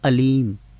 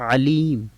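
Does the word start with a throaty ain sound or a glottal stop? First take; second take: glottal stop; ain sound. First: It starts with a plain glottal stop. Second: It starts with a throaty ain sound. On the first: It means painful rather than all-knowing. The speaker calls it wrong. "Hamza के साथ अगर आप अलीम पढ़ते हैं" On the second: It means all-knowing. The speaker calls it right. "बोलना था अलीम"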